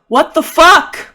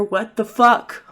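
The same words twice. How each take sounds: First: High, loud, drawn-out outburst; acted shriek of outraged bafflement; shocked shout. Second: Slow, higher-pitched incredulous swearing; acted shock, not yet shouting; stunned disbelief. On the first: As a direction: yell the curse in total disbelief. Repeats it as escalating shocked outburst. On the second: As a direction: draw the curse out in disbelief. First take of escalating shocked outburst.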